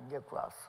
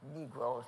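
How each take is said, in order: First: The word sounds close to an offensive slur. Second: The word is pronounced carefully with full vowels. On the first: This form sounds too close to a slur. The speaker calls it wrong. "not Negroes, because that's too close to the other word" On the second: This is the respectful form of the word. The speaker calls it right.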